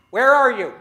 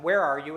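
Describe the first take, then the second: First: Loud, higher call through rubble. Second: Said in the usual way. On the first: Shown as a demonstration. Speaker calling to a buried crowd, loud. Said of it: "Let's try it again". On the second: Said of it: "I'm gonna knock three times and ask you a question".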